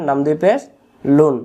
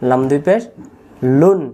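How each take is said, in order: Both takes have the same delivery.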